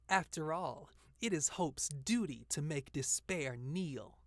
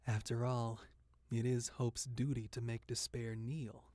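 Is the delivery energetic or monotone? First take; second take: energetic; monotone. First: It is said with lively, upbeat energy. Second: It is said in a flat, monotone way. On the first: "happy and energetic" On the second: "Noir is supposed to be like more monotone"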